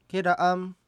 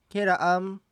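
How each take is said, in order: The two takes are said the same way.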